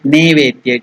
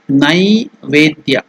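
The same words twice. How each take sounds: First: The first syllable has the vowel 'e'. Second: The first syllable has the vowel 'ai'. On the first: The speaker calls it wrong. "Some people tell it Naivedya. It is not Ne" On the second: The speaker calls it right. "The pronunciation is Naivedya. ... It is Nai"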